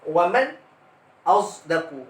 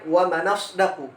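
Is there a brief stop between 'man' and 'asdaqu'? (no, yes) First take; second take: yes; no. First: A brief silent stop comes before asdaqu. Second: The n runs straight into asdaqu without stopping. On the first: "dia ada saktah pada sakin mafsul" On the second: "Imam Warsh membaca dengan naqal pada waman asdaqu"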